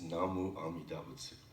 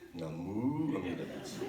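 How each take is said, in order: First: The syllable 'mu' is not stressed. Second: The syllable 'mu' is strongly stressed. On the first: The speaker calls it right. "it's just Namu Amida Butsu" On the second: The speaker calls it wrong. "you don't have to put the emphasis on the mu"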